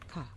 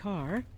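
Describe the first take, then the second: First: It is said British-style with no final R. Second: It is said with an American R at the end. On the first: "if you're doing received pronunciation" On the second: "Americans have a unique R sound"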